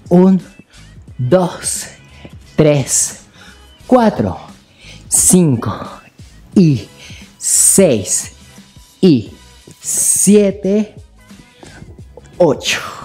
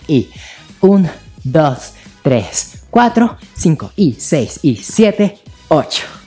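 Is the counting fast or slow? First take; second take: slow; fast. First: The counting is said very slowly. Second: The counting is said a bit faster.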